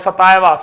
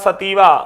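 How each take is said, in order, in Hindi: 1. बीच का स्वर 'eye' जैसा बोला जाता है। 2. बीच का स्वर 'ee' जैसा बोला जाता है। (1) "सतायवा भी कुछ लोग बोलते हैं" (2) "ओरेजा सतीवा या सतायवा"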